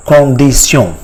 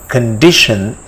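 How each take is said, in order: First: "condition" as French kon-dee-syon, nasal vowels; French pronunciation. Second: Said in the usual way. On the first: Shown as a demonstration. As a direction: say "condition" the French way, ending in -syon, not -shun. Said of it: "how it is pronounced". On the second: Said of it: "it is called".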